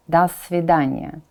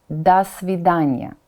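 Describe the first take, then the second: No difference in how they are said.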